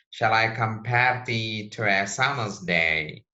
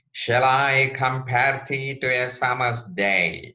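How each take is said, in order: First: "Shall I compare thee to a summer's day?" with "I" and "compare" stressed, steady iambic beat; iambic reading again. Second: "Shall I compare thee to a summer's day?" read unstressed-stressed, louder and higher, I and pair hit; da-DUM rhythm, five beats, louder; iambic reading. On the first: Teacher repeats the line for students, stressing iambic beats. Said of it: "So we should read iambic pentameter lines". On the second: Teacher shows the class how blank verse is read, in iambic stress. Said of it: "reading style of blank verse should be like this".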